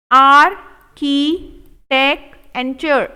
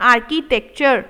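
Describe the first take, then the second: First: Architecture stretched very slow, each syllable held; slow drawn-out model. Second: Said in the usual way. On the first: Shown as a demonstration. Teacher modelling architecture slowly for students. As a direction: draw each sound out. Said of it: "teacher drills slow model take". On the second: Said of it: "normal repeat".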